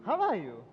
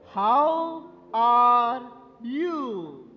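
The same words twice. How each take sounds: First: It is said at normal volume. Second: It is said loudly.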